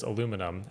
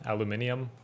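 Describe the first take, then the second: First: ALUMINUM as "a-LOO-mi-num"; four-syllable American ALUMINUM. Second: ALUMINIUM as "al-yoo-MIN-ee-um"; five-syllable British ALUMINIUM. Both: Shown as a demonstration. Contrasting the two pronunciations.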